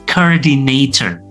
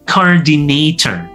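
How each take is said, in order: Both takes have the same delivery.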